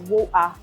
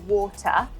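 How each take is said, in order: First: The middle t is replaced by a glottal stop. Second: The t in the middle is clearly pronounced. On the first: "if you were from South London, uh, you would say water" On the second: "we would pronounce the T and we would say water"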